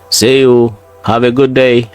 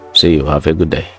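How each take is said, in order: First: The voice is raised and lively. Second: The voice is held down and flat.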